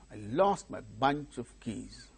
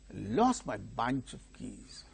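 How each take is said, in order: First: The word 'my' is unstressed. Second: The same.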